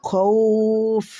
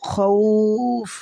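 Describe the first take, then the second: First: The word ends on a bare f, vowel lengthened. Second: The word ends on a bare f, vowel lengthened.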